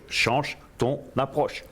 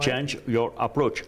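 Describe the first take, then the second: First: The same line in French, slow and deliberate; slow French translation. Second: English said slowly and deliberately, French accent; slow English phrase. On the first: Translating the motto for viewers, slow and deliberate. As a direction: give Change ton approche slowly, word by word. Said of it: "comprendre en français". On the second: Teaching the motto to viewers, slow deliberate English. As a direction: spell out Change your approach slowly. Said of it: "Facile à comprendre". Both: Shown as a demonstration.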